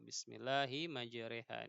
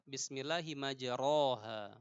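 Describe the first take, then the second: First: The vowel after r is tilted toward e. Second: The vowel after r is a plain a. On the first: "dibaca dengan bismillahi majreha" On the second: "Ro-nya tetap tidak tidak mereng cara membacanya"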